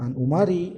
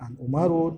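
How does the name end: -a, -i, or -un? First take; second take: -i; -un. First: The name ends in a short i vowel. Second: The name ends in u followed by n.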